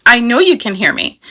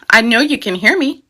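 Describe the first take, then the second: First: Mock infant, leaning on "you" with a falling end; demanding baby punches "you" and drops the end; stress on you. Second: Mock infant, leaning on "hear" with a rising end; demanding baby stresses "hear" and lifts the end. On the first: Upset infant to an absent parent, stress on "you". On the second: Upset infant to an absent parent, stress on "hear". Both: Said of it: "Aries wants it now".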